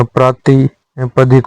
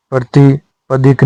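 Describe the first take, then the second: First: प्रातिपदिक with long first aa; correct form. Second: प्रतिपदिक with short first a; brief opening vowel in प्रतिपदिक; wrong form. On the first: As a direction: say praati-padik for प्रातिपदिक. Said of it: "होता है". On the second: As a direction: say prati-padik for प्रतिपदिक. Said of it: "नहीं होता". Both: Shown as a demonstration.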